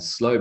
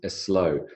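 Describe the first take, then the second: First: The word starts directly with the s sound. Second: A short uh vowel comes before the s.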